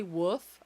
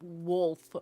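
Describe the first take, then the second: First: Woof said with no l, like a dog bark; woof, l left out; the other way. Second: Wolf said slowly with a clear l; slow careful wolf; her own way. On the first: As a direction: drop the l in woof. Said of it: "Some people say woof". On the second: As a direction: stretch out wolf, l sounded. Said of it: "I say wolf". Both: Shown as a demonstration.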